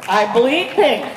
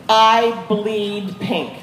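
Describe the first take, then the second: First: I bleed pink, slower, with the weight landing on pink; stress on pink. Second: I bleed pink said very slowly, each word pressed out; slow emphatic claim. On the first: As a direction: lean into pink. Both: Real, not acted. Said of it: "It's true".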